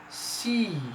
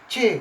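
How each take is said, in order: First: The letter name is said the English way. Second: The letter name is said the Indonesian way. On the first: "but in English we spell it C" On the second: "C kalau bahasa Indonesianya"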